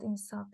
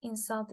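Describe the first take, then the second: First: "insult" stressed on the last syllable; "insult" with final stress; verb stress. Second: "Insult" stressed on the first syllable; "Insult" with initial stress; noun stress. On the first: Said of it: "with final stress". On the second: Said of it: "initial stress and words with final stress". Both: Shown as a demonstration.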